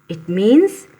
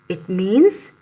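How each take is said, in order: The two takes are said the same way.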